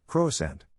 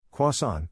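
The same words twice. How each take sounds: First: Croissant as kroh-uh-SENT with a hard T; croissant the English way, kro-sant; anglicized croissant. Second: Croissant as kwah-SAHN, nasal end, no R; French croissant. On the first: Mocking how English speakers say croissant. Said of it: "English speakers tend to elongate the last syllables". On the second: French commenter showing the proper Croissant. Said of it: "The real pronunciation". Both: Shown as a demonstration.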